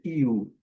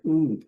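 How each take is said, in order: First: It is said with an English glide, like "you". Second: It is said as a plain Portuguese vowel. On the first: The speaker calls it right. "vai ser IU" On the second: The speaker calls it wrong. "não vai ser U"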